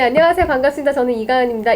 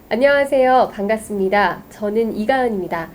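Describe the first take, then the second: First: The sentences run together without pauses. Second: Short pauses separate each of the sentences. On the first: "이렇게 말하는 거랑" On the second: "쉬어가는 타이밍을, 그걸 포즈라고 하는데 그 타이밍을 만들어주는 거예요"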